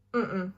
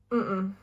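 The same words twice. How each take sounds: The two takes are said the same way.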